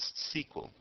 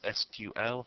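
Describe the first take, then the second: First: It is said as a single two-syllable word. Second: It is spelled out as three separate letters.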